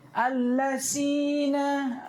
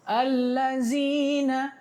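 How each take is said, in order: First: The middle consonant is a hissing s sound. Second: The middle consonant is a buzzing z sound. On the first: "Ada lebih parah pakai sin" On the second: "banyak orang Indonesia dia baca zai"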